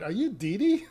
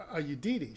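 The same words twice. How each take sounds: First: Higher, rising as if baffled; mock confused repeat to her friend; confused drunk lady. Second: Said in the usual way. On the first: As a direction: echo the question back, puzzled. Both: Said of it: "she turns around to a friend".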